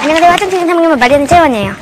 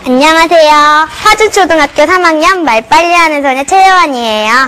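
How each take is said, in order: First: It is said fast. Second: It is said slowly.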